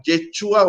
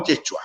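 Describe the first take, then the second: First: Yeshua with the stress on the final "ua" part, on U. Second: Yeshua with the stress on its first syllable, Ye. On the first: Teacher showing the spelling with an accent, Yeshua stressed on U. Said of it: "En algunas partes sale con tilde en la U". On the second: Teacher showing the spelling without accent, Yeshua stressed on Ye. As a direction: say Yeshua leaning on YE, the U left light. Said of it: "y otros sin tilde en la U". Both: Shown as a demonstration.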